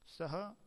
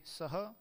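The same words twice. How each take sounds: First: सः with only slight emphasis, questioning; touch सः lightly so the sentence turns into a question; mild emphasis on सः; lighter stress on सः. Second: सः said slowly and firmly, clearly emphasised; strong emphasis on सः; stress on सः. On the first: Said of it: "सः पर ही बल तो दिया जाए किंतु कुछ कम". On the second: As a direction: lean hard on सः to mark this very person. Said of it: "यदि सः पर बल दे दिया जाए". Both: Shown as a demonstration.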